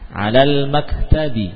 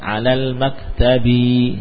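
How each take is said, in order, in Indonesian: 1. Vokal setelah b itu pendek. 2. Vokal setelah b itu panjang. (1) "Jangan kita panjangkan baknya" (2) "bukan alal maktabi, ya, jangan"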